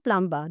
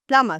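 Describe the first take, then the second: First: The B sound is pronounced in the word. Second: The B sound is silent in the word. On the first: The speaker calls it wrong. "but it is not plumber" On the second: The speaker calls it right. "The B is silent here, so the word is plumber"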